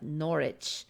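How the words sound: It is said with an English accent.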